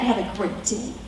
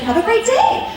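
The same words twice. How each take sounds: First: It is said in a sarcastic tone. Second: It is said in a sincere tone. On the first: The writer is read as being mocking. "oh, they said it like that" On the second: The writer genuinely wishes a good day. "When maybe they said"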